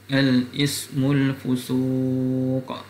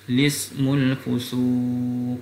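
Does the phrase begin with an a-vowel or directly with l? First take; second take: a-vowel; l. First: It starts with an a-vowel before the l. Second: It starts directly with the l sound. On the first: "Wajah yang pertama dibaca dengan hamzatul wasl" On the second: "boleh juga mulakan cara kedua dengan lam ta'rif"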